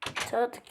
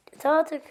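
First: Said in the usual way. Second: Louder, higher exasperated outburst; fed up. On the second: Real, not acted. Gamer fed up with the villagers, exasperated louder outburst. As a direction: snap it out in frustration.

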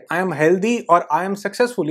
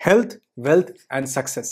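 First: Said in the usual way. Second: Slow, deliberate chant of the three words; calm slow mantra; slow affirmation. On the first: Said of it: "Do not say". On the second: Shown as a demonstration. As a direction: savour each word slowly. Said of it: "सिर्फ ये बोलो".

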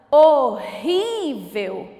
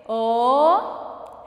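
First: RÍ de "Horrível" esticado; chamando a palavra. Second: "Horrível" em três sílabas, com pausas; separando as sílabas. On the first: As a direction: chame "Horrível" alongando o RÍ, com o início forte. ("Horrível" lento, sem pausas, tônica prolongada) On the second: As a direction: diga "Horrível" pausado: ho, rrí, vel. ("Horrível" silabado devagar, sílaba por sílaba) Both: Shown as a demonstration. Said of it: "Vamos separar primeiro?".

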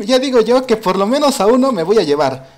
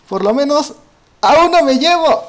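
First: Said in the usual way. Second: Higher and louder, a fired-up battle promise; rising, excited declaration of taking one down; determined vow. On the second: Real, not acted. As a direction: punch it out like a gamer psyching himself up. Vows revenge on teaming players.

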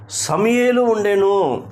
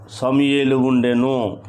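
First: Raised, slow proclamation of the answer; emphatic answer. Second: Said in the usual way. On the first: Real, not acted. Preacher answers his question about who prayed, emphatic and high. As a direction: ring it out high and drawn out.

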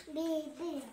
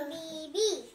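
First: Said in the usual way. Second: Bibi loud, both syllables spelled out; over enunciating. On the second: Shown as a demonstration. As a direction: sound out bi-bi clearly.

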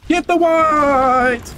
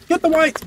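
First: Very slow, stretched battle cry; drawn-out call. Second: Said in the usual way. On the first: Acted. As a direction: stretch every word out long. Drawn-out battle cry mid fight.

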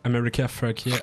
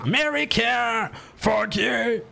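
First: Said in the usual way. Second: Shouting. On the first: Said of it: "c'est ça que je veux faire". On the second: Shown as a demonstration. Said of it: "T'es en train de crier".

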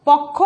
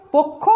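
First: পক্ষ with open ɔ, "pawk-kho"; as written, open vowel. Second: পক্ষ with rounded o, "pok-kho"; as pronounced, closed o. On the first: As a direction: say পক্ষ as spelt, first vowel wide. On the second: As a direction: say পক্ষ with first vowel closed to o. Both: Shown as a demonstration. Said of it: "লিখেছি".

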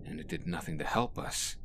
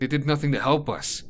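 First: "it" stressed with a rising end; wrong stress. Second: "help" stressed, falling at the end; corrected reading, "help" louder and higher, falling finish. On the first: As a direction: stress "it", rise on "us". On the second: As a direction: push on "help" and let it drop. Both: Shown as a demonstration. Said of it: "I read that in the wrong accent".

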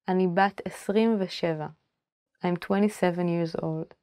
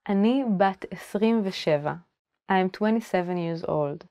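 Both takes have the same delivery.

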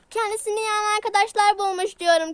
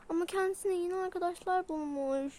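First: Loud repeat into the ear; shouting. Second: Said in the usual way. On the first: Acted. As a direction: shout it so the deaf one hears. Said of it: "Bağırma kulağıma sağır gibi ya". (kulağına bağırarak)

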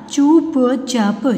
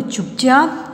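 First: चुपचाप very slow in held pieces; syllable by syllable. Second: Said in the usual way. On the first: Shown as a demonstration. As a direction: sound out चुपचाप slowly. (चुपचाप को तोड़-तोड़ कर, धीरे) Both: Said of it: "फिर ये सारे बोलने".

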